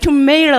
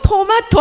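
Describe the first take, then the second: First: The middle vowel is 'ay' and the t is flapped. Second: The middle vowel is 'ah' and the t is crisp. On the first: The speaker calls it wrong. "미국식 영어가 너무 어려운 거예요. 발음이" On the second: The speaker calls it right. "영국식 영어가 나한테 너무 마음에 든다"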